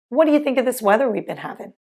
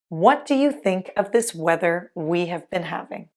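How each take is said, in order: First: Words are reduced and run together, like whatcha. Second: Each word is pronounced fully and separately.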